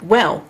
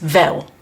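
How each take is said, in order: First: It begins with a W sound. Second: It begins with a V sound, Cockney style.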